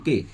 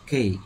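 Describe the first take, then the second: First: The letter is said with one steady vowel. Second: The letter is said with a gliding vowel. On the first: The speaker calls it wrong. "আমরা যেটা ভুল করি সবাই বলি কে" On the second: The speaker calls it right. "এটা সঠিক উচ্চারণ হচ্ছে"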